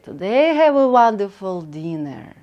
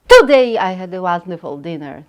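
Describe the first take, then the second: First: The voice grows, then fades softer at the end. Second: The voice stays equally strong to the end. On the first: The speaker calls it right. "And I fade in the end" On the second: The speaker calls it wrong. "Usually we don't start speaking uh, like this"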